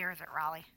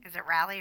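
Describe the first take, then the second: First: Raleigh with an open "ah", RAH-lee; alternative pronunciation. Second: Raleigh with a short flat "a", RAL-ee; pronunciation check. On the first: Host offering the other way to say the city, Raleigh as RAH-lee. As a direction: say Raleigh as RAH-lee, first vowel as in "father". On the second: Host asking how the city is said, Raleigh as RAL-ee. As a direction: say Raleigh as RAL-ee, first vowel as in "cat". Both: Shown as a demonstration. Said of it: "Is it Raleigh or is it Raleigh".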